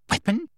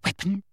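First: Very high rising question; mounting excitement. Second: High, hushed eager question; excited. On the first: Umbridge repeating the discovery, mounting excitement. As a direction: squeak it in greedy disbelief. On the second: Umbridge hearing of a weapon, excited. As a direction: seize on the word. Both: A narrator's reading. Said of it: "eyes seemed to pop with excitement".

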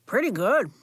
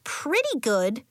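First: Talking through a cookie; chewing while talking; mouth full. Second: Slower and higher; a lighter young girl voice; Nori's voice. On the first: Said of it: "talking with his mouth full". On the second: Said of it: "Nori said". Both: Acted.

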